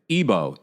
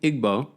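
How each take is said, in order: First: No g sound is heard in the word. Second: A g sound is heard in the word. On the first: The speaker calls it right. "the G is silent" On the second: The speaker calls it wrong. "am I pronouncing it incorrectly?"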